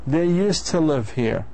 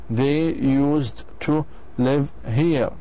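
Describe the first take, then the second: First: 'Used to' is reduced and linked together. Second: 'Used to' is said fully, as separate words. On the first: The speaker calls it right. "That's how you speak English fluently" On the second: The speaker calls it wrong. "Some people they say ... هذا خطأ"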